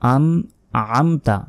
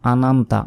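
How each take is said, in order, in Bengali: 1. n-এর পরের স্বরটি গলা থেকে আসে। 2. n-এর পরের স্বরটি পাতলা। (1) "আইন এখানে মোটাভাবে মানে গলার ভেতর থেকে উচ্চারণ হবে" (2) "আমরা অনেকে বলি আনামতা, আনামতা নয়"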